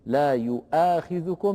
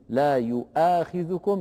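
First: The word has a glottal stop after yu. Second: The word has a glottal stop after yu.

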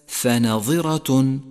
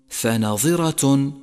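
No difference in how they are said.

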